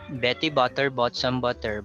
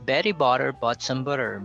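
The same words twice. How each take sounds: First: The middle t sounds are hard and crisp. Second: The middle t sounds are softened like d. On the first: The speaker calls it wrong. "if I don't use the soft D, it would sound like this" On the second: The speaker calls it right. "using the soft D, notice how it improves"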